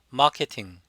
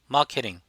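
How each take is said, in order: First: No r sound, and a clear t sound. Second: No r sound, but the t is flapped. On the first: "영국식은 R 발음을 하지 않고 T 발음을 그대로 T로 합니다" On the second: "호주식은 마케팅"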